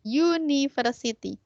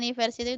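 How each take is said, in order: First: The word begins with a y sound. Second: The word begins with a plain vowel sound. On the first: The speaker calls it right. "Suara pertama kali yang keluar itu adalah Y" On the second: The speaker calls it wrong. "bukan university"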